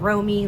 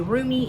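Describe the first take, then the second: First: The first vowel sounds like 'oh'. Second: The first vowel sounds like 'oo'. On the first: "like as in Romy and Michelle's high school reunion" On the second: "I've heard some people say Rumi, even though there's only one O"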